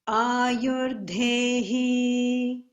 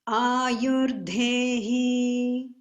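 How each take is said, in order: No difference in how they are said.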